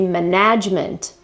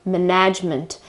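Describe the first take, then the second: First: The stress is on the second syllable. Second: The same.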